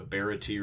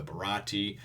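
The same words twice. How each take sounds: First: "Baratie" said as BARE-uh-tee; first pronunciation option. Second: "Barati" said as buh-RAH-tee; second pronunciation option. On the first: Offering viewers a reading of the ship's name, "Baratie" front-stressed. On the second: Offering viewers another reading of the ship's name, "Barati" middle-stressed. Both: Shown as a demonstration. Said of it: "I hope that I pronounced everything right".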